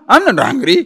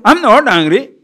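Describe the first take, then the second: First: A slightly raised, defensive denial; a touch of irritated insistence; mild angry denial. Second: Higher and louder, heated denial; angry denial. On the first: Angry man insisting to the questioner, mildly defensive. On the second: Upset person denying anger to whoever asks, heated. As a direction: snap it back defensively. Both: Retold or imitated. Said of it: "The person is so angry, so upset".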